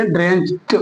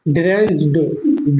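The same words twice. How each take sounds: First: ड्रेंच्ड ending in a T sound; correct pronunciation. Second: ड्रेंच्ड with a voiced D ending; wrong pronunciation. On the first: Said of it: "टा बोलेंगे". (सही उच्चारण, ड्रेंच्ड के अंत में 'ट') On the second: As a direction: end ड्रेंच्ड on D as spelt. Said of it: "डा नहीं बोलेंगे". (गलत उच्चारण, ड्रेंच्ड के अंत में 'ड') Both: Shown as a demonstration.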